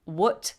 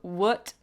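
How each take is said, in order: First: It is said with an American uh vowel. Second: It is said with an American uh vowel.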